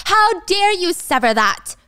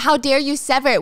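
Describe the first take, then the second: First: Slow, outraged yell; furious demand. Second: HOW lightly stressed, barely raised; a hint of the angry mother-in-law; mild retold scolding. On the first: Acted. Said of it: "what is she yelling about". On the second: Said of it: "She's saying".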